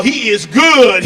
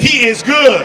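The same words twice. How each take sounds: First: Slow loud stress on good; proud emphasis. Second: Loud repeat, good stressed; echoed emphasis. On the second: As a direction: hammer good again. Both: Shown as a demonstration.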